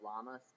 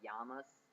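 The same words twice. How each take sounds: First: The double L is sounded as L. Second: The double L is not sounded as L. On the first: The speaker calls it wrong. "instead of llamas because it is spelled with a double L and a lot of people do that" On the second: The speaker calls it right. "say llamas"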